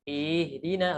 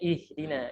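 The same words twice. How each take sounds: First: A vowel is drawn out longer. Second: The vowels are kept short. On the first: The speaker calls it wrong. "kadang ada isba' ataupun penambahan harokat" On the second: The speaker calls it right.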